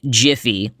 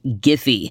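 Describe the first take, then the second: First: The word begins with a j sound. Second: The word begins with a hard g sound. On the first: The speaker calls it wrong. "not Jiffy, like the campfire popcorn" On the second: The speaker calls it right. "the company I was discussing is properly pronounced Giphy"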